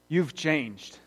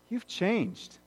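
First: It sounds accusing and negative. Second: It sounds kind and curious.

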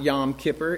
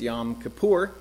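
First: The stress in Kippur is on the first syllable. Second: The stress in Kippur is on the last syllable. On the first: The speaker calls it wrong. "It's not Yom Kippur" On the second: The speaker calls it right. "it's Yom Kippur"

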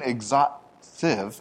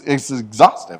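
First: There is a pause in the middle of the word. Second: The word is said smoothly with no pause. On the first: The speaker calls it wrong. "you're putting a pause in the middle of it" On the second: The speaker calls it right. "that's not how you say the word. It's exhaustive"

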